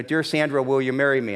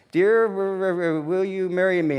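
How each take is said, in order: First: Said in the usual way. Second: Imitating her slow, halting read of a smudged note; puzzled reading. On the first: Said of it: "it said, you know". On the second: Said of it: "she's trying to figure this out".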